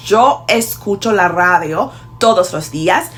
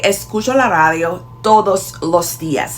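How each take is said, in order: First: "radio" with a strong, rolled R; punchy trilled R opening "radio"; emphatic R. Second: Barely rolled R opening "radio"; lighter R. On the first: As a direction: lean hard on the R of "radio". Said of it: "with an emphatic pronunciation of radio". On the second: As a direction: go easy on the R in "radio". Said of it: "others go lighter and say". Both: Shown as a demonstration.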